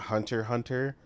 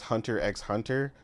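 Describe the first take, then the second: First: The letter X is left out entirely. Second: The letter X is spoken between the words. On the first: The speaker calls it wrong. "not Hunter Hunter" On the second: The speaker calls it right. "It is Hunter X Hunter"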